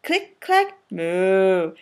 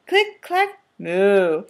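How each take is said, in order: Both takes have the same delivery.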